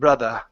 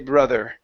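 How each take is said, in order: First: The ending is an 'uh' sound without r. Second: The ending is an 'er' sound with r. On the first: "if you wanted to maintain a British accent, you could say brother, and it's an uh sound" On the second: "But in American pronunciation, we say brother, and it's an er"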